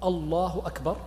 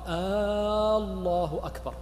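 First: The first vowel is short, not drawn out. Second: The first vowel is drawn out long. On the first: It states that God is greatest. The speaker calls it right. "بدلا من أن يقول الله أكبر" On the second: It turns the statement into a question. The speaker calls it wrong. "من مد أول الكلمتين في التكبير"

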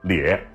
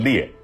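First: The syllable is said with the third tone. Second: The syllable is said without the third tone. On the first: This is the local Beijing pronunciation. "得念裂第三声" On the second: This is the standard pronunciation. "正音应该念裂啊"

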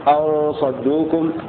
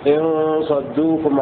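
First: The opening word begins with an a vowel. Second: The opening word begins with an i vowel. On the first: It gives a reason. "وقرأ الباقون بفتحها" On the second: It states a condition. "بكسر الهمزة في إن صدوكم"

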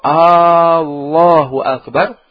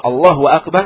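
First: The opening vowel is drawn out long. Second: The opening vowel is kept short. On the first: It asks whether God is the greatest. The speaker calls it wrong. "maknanya, apakah Allah Maha Besar?" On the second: It states that God is the greatest. The speaker calls it right. "artinya Allah Maha Besar"

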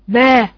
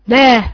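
No difference in how they are said.

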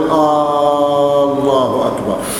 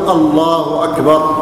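First: It opens with a long, questioning initial vowel. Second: It opens with a short, plain initial vowel. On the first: It sounds like asking whether God is greatest. The speaker calls it wrong. "يأتي بالهمزة قبل التكبير" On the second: It declares that God is greatest. The speaker calls it right. "فيؤذنون أذانا صحيحا"

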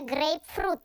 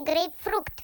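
First: The word ends with t and no k sound. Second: The word ends with a k sound before t. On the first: The speaker calls it right. "правильно ведь все равно говорить «грейпфрут»" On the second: The speaker calls it wrong. "Вы говорите «грейпфрукт» вместо «грейпфрут»"

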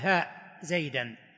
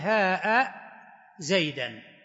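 First: The first vowel is short, with no glottal stop. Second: The first vowel is long, ending in a glottal stop. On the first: "القصر تقول" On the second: "والمد تقول"

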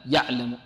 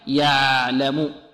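First: The ain is cut off tightly and abruptly. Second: The ain is held for a medium length. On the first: The speaker calls it wrong. "لعل بعض الطلاب يعطيها شدة" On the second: The speaker calls it right. "بل هي متوسطة، ليست شديدة وليست رخوة"

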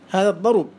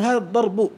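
First: The u vowel moves onto the r. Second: The final b carries the u vowel. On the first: This is the pausal form with the vowel shifted. "سكنت الباء ونقلت الضمة إلى الراء" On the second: This is the basic form before the pause change. "الأصل أن تقول هذا الضرب"

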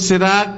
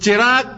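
First: The word begins with an 's' sound. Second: The word begins with a 'ch' sound. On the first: This is how Bangladeshi Bengalis say it. "বাংলাদেশের বাঙালিরা স স, সব স" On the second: This is how Kolkata Bengalis say it. "আমরা কলকাতার বাঙালিরা চটাকে ভালো করে উচ্চারণ করি"

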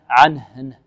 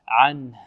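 First: The n sound is bounced with a slight vowel. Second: The n sound is held still without a vowel. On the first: The speaker calls it wrong. "لا نحرك أو لا نقلقل النون أو نحركها، نقول عنه" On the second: The speaker calls it right. "بل الوقف بتسكين النون وإيضاح الهاء"

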